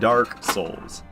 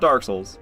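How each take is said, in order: First: It is said slowly. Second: It is said quickly.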